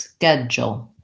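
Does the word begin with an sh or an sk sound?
sk. It begins with sk and has a j sound. This is the American pronunciation.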